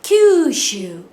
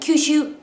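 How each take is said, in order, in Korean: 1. 모음을 길게 뺍니다. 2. 모음을 짧게 끊습니다. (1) "장음, 총 이거를 길게" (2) "그냥 큐슈 이렇게 발음한다든지"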